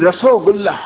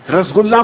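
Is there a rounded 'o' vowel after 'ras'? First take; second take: yes; no. First: A rounded 'o' vowel follows 'ras'. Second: There is no vowel after 'ras'.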